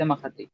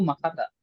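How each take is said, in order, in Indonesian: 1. Kata itu berakhir dengan vokal 'i'. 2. Kata itu berakhir dengan vokal 'a'. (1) "nggak bisa makati" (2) "kasrohnya nanti digantikan oleh fathah"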